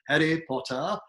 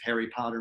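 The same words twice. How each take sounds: First: Harry Potter in a British accent, r's dropped. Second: Said in the usual way. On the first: Shown as a demonstration. Coach imitating a kid's movie-learned British accent. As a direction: say it like a British film character. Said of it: "a little bit of a British accent".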